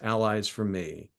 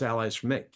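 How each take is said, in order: First: The vowel in 'me' is dragged out long. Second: The vowel in 'me' is said in the home accent. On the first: It is adapted so Texans understand it. "the way I say it in Texas ... deliberately drag that E" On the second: It is the speaker's natural home pronunciation. "the way I naturally say is"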